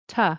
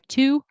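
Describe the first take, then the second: First: The word shrinks to a quick t sound. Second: The word has a full, long vowel. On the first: "in connected speech, It's reduced to t" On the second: "notice this word individually, it's like two"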